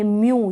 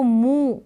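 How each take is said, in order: First: म्यू with a clear य glide before the long ऊ; correct pronunciation. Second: मू with a plain ऊ and no य sound; wrong pronunciation. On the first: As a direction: let the य sound come through in म्यू. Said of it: "य का भी sound आएगा". (म्यू में य की आवाज़ साफ़ सुनाई दे) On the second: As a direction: slowly say मू without the y glide. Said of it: "या ऐसे नहीं पढ़ेंगे". (मू को बिना य की आवाज़ के, धीरे से) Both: Shown as a demonstration.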